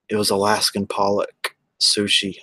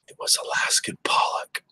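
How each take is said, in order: First: Said in the usual way. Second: Whispered confession, no voice at all; hushed, like admitting a secret. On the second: Real, not acted. Whispering to the chat that the sushi was Alaskan pollock. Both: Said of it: "sorry to say it was".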